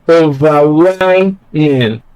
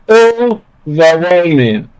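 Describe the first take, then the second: First: The stress is on the third syllable. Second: The stress is on the first syllable. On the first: The speaker calls it right. "when you place stress on well, well" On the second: The speaker calls it wrong. "stress is on O, the first syllable"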